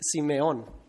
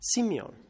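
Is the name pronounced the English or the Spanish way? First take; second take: Spanish; English. First: The name is said with Spanish pronunciation. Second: The name is said with English pronunciation. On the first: "In Spanish, it's Simeon" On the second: "the pronunciation in English of that name is different"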